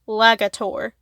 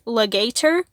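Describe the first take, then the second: First: The first syllable sounds like 'lag'. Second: The first syllable sounds like 'leg'. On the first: The monster sounds menacing. "or it can be pronounced Lagator, which would be way more menacing" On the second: The monster sounds funny. "It can be pronounced Legator, which I find extremely funny"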